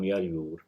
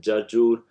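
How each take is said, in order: First: The word is said with two y sounds. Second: The word is said with two j sounds. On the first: This is the Gulf Arabic form. "so this will become yar yur" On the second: This is the standard Arabic form. "the jim in the jarjur"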